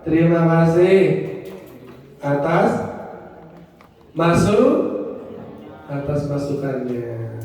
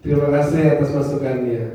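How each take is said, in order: First: Said in the usual way. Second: Polite thanks. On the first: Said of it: "Ucapannya apa?". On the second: Shown as a demonstration. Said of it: "Jadi kalau dikritik".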